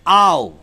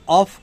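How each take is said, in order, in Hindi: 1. शब्द का अंत v ध्वनि से होता है। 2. शब्द का अंत f ध्वनि से होता है। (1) "शुद्ध उच्चारण है आओ" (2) "जिसको आप ऑफ कहते हैं"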